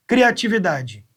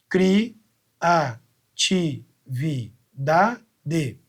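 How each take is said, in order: First: Said in the usual way. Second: Cri-a-ti-vi-da-de with a pause between every syllable; teacher separating the syllables; split into syllables. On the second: Shown as a demonstration. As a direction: spell out each beat of Cri-a-ti-vi-da-de very slowly.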